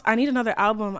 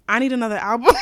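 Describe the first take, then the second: First: Dead serious this time; mean it, no joking; sincere. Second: Half laughing request. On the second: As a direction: say it through a giggle. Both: Real, not acted. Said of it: "I'm being so dead ass".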